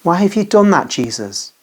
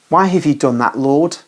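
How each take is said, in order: First: The question pitched much higher in grief; higher anguished cry. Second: Mild moan. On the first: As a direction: let the pain lift the voice up. Grieving sister repeats her question. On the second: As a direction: mourn the question gently, understated. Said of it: "and she moans". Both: A narrator's reading.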